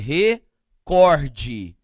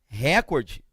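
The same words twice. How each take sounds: First: The stress is on the second syllable. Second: The stress is on the first syllable. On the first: The speaker calls it right. "a tônica seria então o quê? Recorde" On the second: The speaker calls it wrong. "Com certeza não. Porque se fosse recorde, a palavra seria o quê? Proparoxítona"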